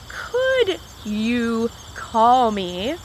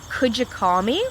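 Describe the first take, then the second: First: Each word is said separately and clearly. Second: The words blend together, sounding like fewer words. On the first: The speaker calls it wrong. "you're not going to hear a native English speaker normally say" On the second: The speaker calls it right. "we're going to say"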